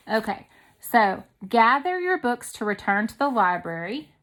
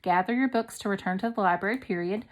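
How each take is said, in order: First: Said in the usual way. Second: Quick, flat command; brisk command read. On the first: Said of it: "To me, that is, um, a command". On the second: Shown as a demonstration. Teacher reading the command sentence aloud, quickly. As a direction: rattle it off as an order. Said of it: "a command".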